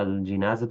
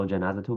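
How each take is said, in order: First: الجنازة with i after the j; kasra on jim. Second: الجنازة with a after the j; fatha on jim. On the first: Teacher reading the first variant, short i in الجنازة. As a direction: say الجنازة as al-jinazah. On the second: Teacher reading the second variant, short a in الجنازة. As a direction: say الجنازة as al-janazah. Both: Shown as a demonstration. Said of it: "بكسر الجيم وفتحها لغتان".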